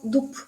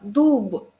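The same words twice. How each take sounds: First: The word ends in a voiceless p sound. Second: The word ends in a voiced b sound. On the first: "le quitamos esta voz y se pronuncia como dub" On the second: "se escribe con b"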